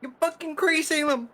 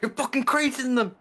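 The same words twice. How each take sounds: First: Even higher, louder royal fury; roaring tyrant king. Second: High, loud royal outrage; roaring tyrant king. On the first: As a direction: scream the order like a tyrant. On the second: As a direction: bellow like a furious king. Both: Pretend. Yelling at bug in game.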